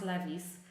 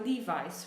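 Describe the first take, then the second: First: It is said the Polish way. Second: It is said the American way. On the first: The speaker calls it wrong. "It should not be pronounced Levi's" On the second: The speaker calls it right. "this is how they pronounce it in the States"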